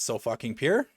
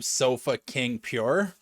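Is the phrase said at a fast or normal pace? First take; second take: fast; normal. First: The phrase is said quickly, words run together. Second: The phrase is said at a normal pace. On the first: It sounds like a rude phrase. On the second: It is the team's name.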